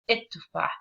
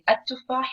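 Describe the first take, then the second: First: The word begins with an 'i' vowel. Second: The word begins with an 'a' vowel. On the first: This is the spoken dialect form. "the colloquial or like the spoken dialect" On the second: This is the standard formal form. "it's like the regular or standard"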